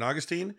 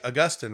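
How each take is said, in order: First: It is pronounced the non-British way. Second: It is pronounced the British way. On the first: "rather than Augustine" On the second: "the British often say Augustine"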